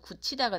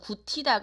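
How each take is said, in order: First: The middle consonant is a palatalized sound. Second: The middle consonant is a plain unpalatalized sound. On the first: The speaker calls it right. "구치다가 되는 거니까 구개음화가 된다" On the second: The speaker calls it wrong. "구티다가 아니고"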